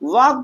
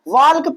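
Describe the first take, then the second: First: No l sound is heard before the k. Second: An l sound is heard before the k. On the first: The speaker calls it right. "यल को क्या कर दे रहे हैं भैया? Silent" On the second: The speaker calls it wrong. "वाल्क नहीं पढ़ रहे हैं"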